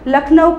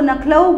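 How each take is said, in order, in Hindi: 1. यह शब्द 'l' ध्वनि से शुरू होता है। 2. यह शब्द 'n' ध्वनि से शुरू होता है।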